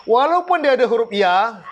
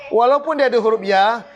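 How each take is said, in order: The two takes are said the same way.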